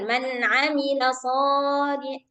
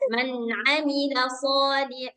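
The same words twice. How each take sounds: First: The vowel in 'sholi' is drawn out longer. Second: The vowel in 'sholi' is held briefly. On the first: The speaker calls it wrong. "jangan ... Dah lebih dia" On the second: The speaker calls it right. "jadi bacanya cukup satu ketukan"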